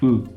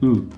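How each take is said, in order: No difference in how they are said.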